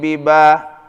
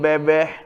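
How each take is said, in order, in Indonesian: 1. Vokalnya diucapkan dengan polos, dengan bunyi a yang jelas. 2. Vokalnya campuran, terdengar lebih dekat ke e.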